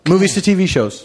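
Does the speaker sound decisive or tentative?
decisive. It sounds firm and emphatic, as a final answer. This is his final answer. "I repeated it, changing the inflection of my voice"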